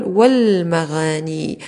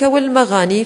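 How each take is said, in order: First: Very slow والمغاني as wal-maghaanii, lam held; drawn-out scansion of والمغاني with long vowels; alif dropped. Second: Said in the usual way. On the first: Shown as a demonstration. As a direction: stretch والمغاني, going straight from wa to l. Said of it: "لأننا نقول". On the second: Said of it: "في آل التعريف تحذف".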